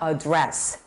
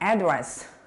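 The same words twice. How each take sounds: First: The stress is on the second syllable. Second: The stress is on the first syllable. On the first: It is a verb. "연설을 하다라는 동사일 때는" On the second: It is a noun. "주소할 때는"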